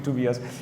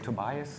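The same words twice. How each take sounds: First: The name is said with a German pronunciation. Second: The name is said with an American pronunciation. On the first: The speaker calls it right. "the German pronunciation would be" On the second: The speaker calls it wrong. "as the Americans say"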